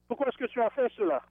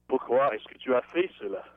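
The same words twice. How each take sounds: First: It is said in a plain, neutral tone. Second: It is said in a crabby, grumpy tone.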